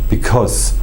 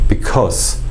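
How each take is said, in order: No difference in how they are said.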